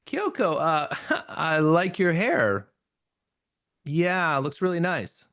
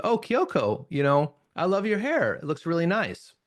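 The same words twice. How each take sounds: First: A slow, giggly, hesitant compliment; awkward laughing compliment. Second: Sincere compliment. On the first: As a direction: giggle through it, unsure. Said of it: "You can hear the voice tone change". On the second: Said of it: "Notice that has a very different meaning". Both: Shown as a demonstration.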